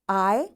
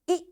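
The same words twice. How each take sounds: First: The vowel is given its long sound. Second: The vowel is given its short sound.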